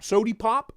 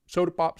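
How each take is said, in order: First: "Sody" ending in a clear EE, pitched up; sody with hard E. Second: Said in the usual way. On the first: Shown as a demonstration. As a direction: say "Sody pop" for fun, EE not UH. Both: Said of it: "With a hard E".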